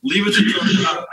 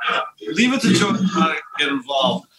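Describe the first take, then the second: First: Slow, breathy whisper, pitched up; knowing whisper. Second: Said in the usual way. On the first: Real, not acted. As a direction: hush it like a knowing aside. Host's wry aside on Joe.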